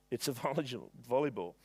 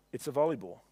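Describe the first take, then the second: First: Laughing. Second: Said in the usual way. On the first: Real, not acted.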